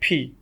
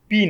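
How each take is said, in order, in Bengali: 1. প্রথম ব্যঞ্জনটি মহাপ্রাণ P। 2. প্রথম ব্যঞ্জনটি অল্পপ্রাণ P। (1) "alphabet ফি" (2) "পি না"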